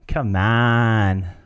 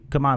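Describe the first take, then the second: First: It sounds encouraging, like gentle coaxing. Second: It sounds casual, like a simple invitation. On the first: Just try it. "just try it" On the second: Let's leave now. "let's leave now"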